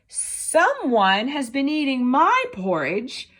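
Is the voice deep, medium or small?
small. It is said in a tiny, small voice.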